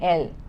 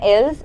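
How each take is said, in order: First: The word ends without any s sound. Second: The word ends with an audible s sound. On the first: The speaker calls it right. "it is same as this, il and el" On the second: The speaker calls it wrong. "The pronunciation is not ils and els"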